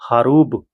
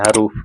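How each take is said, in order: First: The word ends with a b sound. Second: The word ends with an f sound. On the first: The speaker calls it right. "हरूब ब से है" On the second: The speaker calls it wrong. "उसको नहीं बोला जाता है हरूफ"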